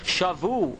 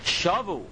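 First: The stress is on the last syllable. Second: The stress is on the first syllable. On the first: They captured. "milra, with the accent on the bays" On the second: They returned. "if you put the accent on the shin"

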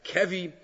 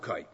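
First: The word has two syllables, with a v sound. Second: The word has one syllable, with no v sound. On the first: "Some people pronounce it as kevi" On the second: "but we'll do koi"

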